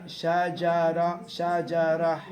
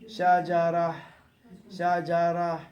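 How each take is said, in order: The two takes are said the same way.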